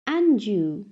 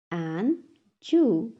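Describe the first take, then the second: First: Said in the usual way. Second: "And Jew" as two separate beats; syllable by syllable. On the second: Shown as a demonstration. Teacher has class repeat, "And Jew" broken in two. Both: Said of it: "टू syllables में divide".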